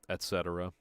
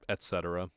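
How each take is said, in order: No difference in how they are said.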